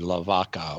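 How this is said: It is said with a Spanish pronunciation.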